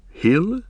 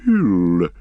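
First: Light, higher questioning Hill; a young hobbit tentatively proposing Hill; hobbit suggesting. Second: Hill said slowly and weighed, falling; pondering the hobbit's word; thoughtfully. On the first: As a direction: offer Hill as a rising guess. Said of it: "suggested Pippin". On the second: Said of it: "repeated the words thoughtfully". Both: A narrator's reading.

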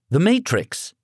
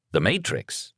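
First: Put-on higher, sure teenage boy voice; confident teen answer. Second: Puzzled father. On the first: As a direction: blurt the title like it's obvious. Son names the film. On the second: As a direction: echo it back, baffled. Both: A narrator's reading.

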